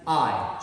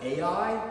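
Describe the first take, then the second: First: The name is said as one syllable. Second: The name is said as two syllables. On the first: The speaker calls it right. "it's pronounced I, like iPhone" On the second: The speaker calls it wrong. "many people would pronounce it A I"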